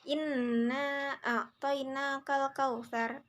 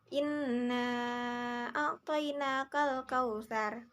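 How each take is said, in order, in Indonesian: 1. Vokal panjang dibaca dua harakat. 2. Vokal panjang dibaca lima harakat. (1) "boleh dibaca menjadi dua harakat" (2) "lima harakat"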